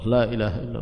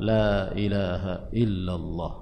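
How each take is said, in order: First: The phrase is said at a faster pace. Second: The phrase is said at a normal pace. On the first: "Kemudian lama kelamaan semakin cepat" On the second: "Awalnya masih normal"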